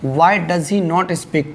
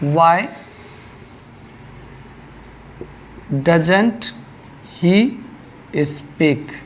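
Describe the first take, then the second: First: The words 'does not' are said in full. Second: The words 'does not' are contracted to 'doesn't'. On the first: "दोनों एक ही चीज़ है" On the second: "ये shortcut है"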